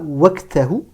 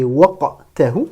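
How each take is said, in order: First: "waqtahu" with an ordinary front k, as waktahu; non-emphatic k in "waqtahu"; wrong plain k. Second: Slow "waqtahu" with emphatic q; emphatic qaf. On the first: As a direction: soften the q of "waqtahu" into k. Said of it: "Ne dites pas waqtahu". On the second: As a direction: stop hard on the uvular q in "waqtahu". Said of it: "Prononcez bien le qaf comme un qaf emphatique". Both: Shown as a demonstration.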